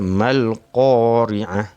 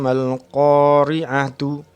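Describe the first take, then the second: First: The word ends with a final h sound. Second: The word ends with a final tu sound. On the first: The reader stops at the end of the verse. "Bila kita wakaf, kita kena baca" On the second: The reader continues into the next verse.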